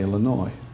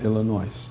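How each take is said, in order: First: The name is pronounced the way locals say it. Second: The name is pronounced the way Southerners say it. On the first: The speaker calls it right. "I have learned to say Illinois" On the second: The speaker calls it wrong. "not Illinois"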